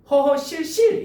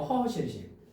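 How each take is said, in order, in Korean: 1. 마지막 음절은 된 s 소리로 시작해요. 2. 마지막 음절은 예사 s 소리로 시작해요. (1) "이게 아니고" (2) "같은 한자가 겹쳐진 경우에는 안 한다는 거야"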